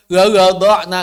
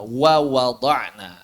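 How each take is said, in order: First: "Wa wada'na" loud, w made with unrounded lips; waw without rounding. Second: "Wa wada'na" slow and lower, lips fully rounded on each w; waw with rounding. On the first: Teacher showing waw fails without ismam, loud unrounded "Wa wada'na". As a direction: botch the w's in "Wa wada'na" by not pouting. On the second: Teacher giving the correct take, slow rounded "Wa wada'na". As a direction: draw out "Wa wada'na" with proper pouted w's. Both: Shown as a demonstration. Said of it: "nggak bisa waw tanpa ismam".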